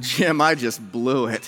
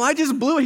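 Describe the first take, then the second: First: Slow, lowered, mock-rueful admission; rueful confession. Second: High-pitched mock exasperation; exasperated protest. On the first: Pastor confessing to his boss, acted ruefulness. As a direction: own up heavily and slowly. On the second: Pastor insisting to his laughing boss, comic exasperation. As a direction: plead it with the voice pushed way up.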